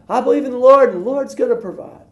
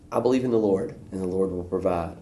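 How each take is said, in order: First: Very high put-on smug voice; smug faith. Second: Said in the usual way. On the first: Man on his roof telling the helicopter crew, very high smug voice. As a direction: chirp it with full confidence.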